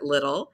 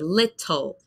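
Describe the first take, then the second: First: It is said in an American accent. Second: It is said in a British accent. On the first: "I pronounce it like like the grocery store" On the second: "in the U K or in other accents, you might say"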